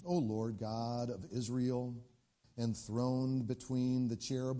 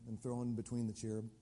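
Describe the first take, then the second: First: Slow, reverent prayer voice; prayer reading. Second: Said in the usual way. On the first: Acted. Hezekiah praying to the Lord at the altar, reverent. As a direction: read it slowly, like a prayer. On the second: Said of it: "What's that mean?".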